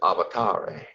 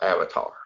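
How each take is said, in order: First: It is said with the angelic-language pronunciation. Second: It is said with the ordinary English pronunciation. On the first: "It's spoken as avatare" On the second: "but avatar"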